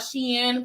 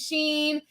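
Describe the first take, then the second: First: The name is said as two syllables. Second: The name is said as one syllable. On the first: The speaker calls it right. "they say it's called Shein because it's supposed to stand for like she's in" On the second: The speaker calls it wrong. "When it first came out, I was calling it Sheen"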